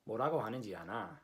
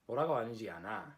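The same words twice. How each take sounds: First: The pitch stays level at the end, statement-like. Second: The pitch stays level at the end, statement-like.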